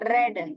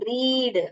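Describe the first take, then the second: First: The vowel is a short 'e' sound. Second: The vowel is a long 'ee' sound. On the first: It is the past tense. "அதோட short sound சொல்லுது" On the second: It is the present tense. "அதோட long sound சொல்லுது"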